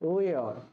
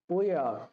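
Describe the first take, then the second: First: The words are joined into one short syllable. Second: The words are joined into one short syllable.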